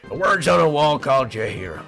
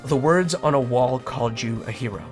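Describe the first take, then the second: First: It is said in a put-on character voice. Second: It is read in the speaker's own natural voice.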